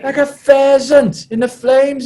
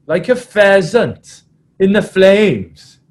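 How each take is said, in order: First: Much higher, very loud mimicked rallying cry; Adam Jones. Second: Slow, loud, high mimicked rallying cry; Adam Jones. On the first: Prop repeating his climax to the team, high hammed-up yell. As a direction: push the repeat right up high, drawn out. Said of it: "he repeated". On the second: Prop climaxing his half-time talk, slow mimicked roar. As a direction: draw out the prop's big climax. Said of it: "it went something like this".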